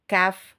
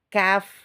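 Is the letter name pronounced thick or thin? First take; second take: thin; thin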